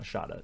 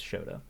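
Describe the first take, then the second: First: "Shota" said as SHAH-tah; mispronounced name. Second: "Shota" said as SHOH-tah; long OH in the first syllable of "Shota"; corrected name pronunciation. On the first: Host rejecting a name's pronunciation, "Shota" as SHAH-tah. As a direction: open AH vowel in the first syllable of "Shota". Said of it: "It's not Shota". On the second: Host correcting himself on the name, "Shota" as SHOH-tah. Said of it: "It's Shota". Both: Shown as a demonstration.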